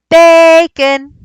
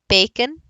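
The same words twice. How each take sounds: First: It is called out loudly with a stretched first syllable. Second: It is spoken normally, pitch high then dropping. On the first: "So if his name was Bacon" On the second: "If you just talk normally"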